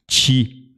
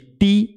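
First: It starts with a hissing ch-like sound. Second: It starts with a plain, hard t sound. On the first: "ele faz ti" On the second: "ao invés de ti"

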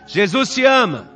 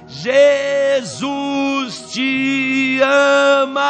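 First: It is said a little louder. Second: It is shouted very loudly.

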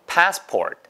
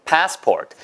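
The two takes are said the same way.

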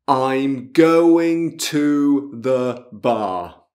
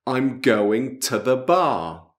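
First: The word 'to' has a full vowel. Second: The word 'to' is reduced to a 't'. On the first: The speaker calls it wrong. "Non è così" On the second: The speaker calls it right. "Ascolta bene"

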